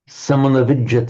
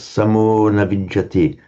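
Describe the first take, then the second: First: The vowel is said short. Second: The vowel is said long. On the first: The speaker calls it wrong. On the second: The speaker calls it right.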